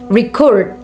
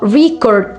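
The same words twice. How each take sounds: First: The stress is on the second syllable. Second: The stress is on the first syllable. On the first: It is used as a verb. "or a verb" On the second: It is used as a noun. "can be a noun"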